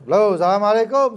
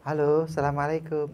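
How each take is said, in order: First: It is said loudly in a firm, curt voice. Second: It is said softly in a gentle, coy voice. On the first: The speaker calls it right. "sing banter ... Sing tegas saklek" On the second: The speaker calls it wrong.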